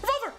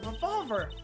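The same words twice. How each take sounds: First: The word is said really fast. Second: The word is said at normal speed.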